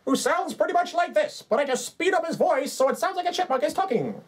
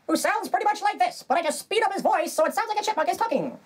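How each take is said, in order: First: High squeaky chipmunk voice. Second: Even higher squeaky chipmunk voice. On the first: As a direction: talk like a cartoon chipmunk. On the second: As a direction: push the cartoon chipmunk higher. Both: Acted. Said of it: "as Chippy the Hook singing Chipmunk".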